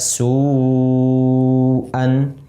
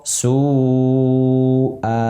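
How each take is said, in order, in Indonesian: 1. Kata ini berakhir dengan bunyi n. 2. Kata ini berakhir dengan vokal terbuka. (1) "dalam kondisi tidak diwakafkan, kita baca su'an" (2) "Ketika wakaf, su'a"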